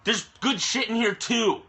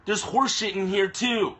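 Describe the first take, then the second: First: "good" punched higher than the rest; stress on good. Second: "horse" leaned on, slower and falling; stress on horse. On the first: Ranting atheist to his viewers about the Quran, leaning on "good". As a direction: hit the word "good", then let the line fall. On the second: Ranting atheist to his viewers about the Quran, leaning on "horse". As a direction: land hard on "horse" and drag the line out. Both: Real, not acted.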